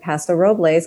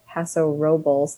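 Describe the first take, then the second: First: It is pronounced the way non-locals say it. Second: It is pronounced the way locals say it. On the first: The speaker did not yet know the local usage. "we said Paso Robles because we didn't know" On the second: This is how people in the area say it. "as locals that people call it Paso Robles"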